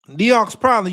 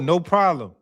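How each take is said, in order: First: The first word sounds like 'nee-ox'. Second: The first word sounds like 'no'. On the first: The speaker calls it wrong. "I don't know how to pronounce that shit" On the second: The speaker calls it right. "It's pronounced no problem from New Orleans"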